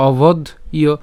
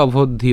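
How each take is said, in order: First: "অবধ ইয়" broken into obodh, pause, iyo; "অবধ ইয়" in two separate pieces; split pronunciation. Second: "অবধ্য" run together as obodh-dhyo; "অবধ্য" joined smoothly, dh gliding into yo; joined pronunciation. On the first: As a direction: stop on the dh of "অবধ", then add "ইয়" as iyo. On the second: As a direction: say "অবধ্য" as one word without a break. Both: Shown as a demonstration. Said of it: "আর একসাথে বললে".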